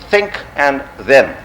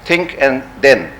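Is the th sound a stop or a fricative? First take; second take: fricative; stop. First: The th is said with the tongue between teeth. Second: The th is said as a hard stop. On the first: This is how speakers who have the th sound say it. "no, not" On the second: This is how Urdu and Punjabi speakers say it. "Instead, we say tha and the. So we say"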